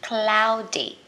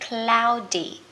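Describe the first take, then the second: Both takes have the same delivery.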